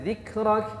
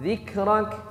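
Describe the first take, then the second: Both takes have the same delivery.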